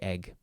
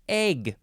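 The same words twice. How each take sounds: First: The vowel is a short 'eh' sound. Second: The vowel is a long 'ay' sound. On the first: "I just say egg" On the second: "Some people like to put in that long A sound"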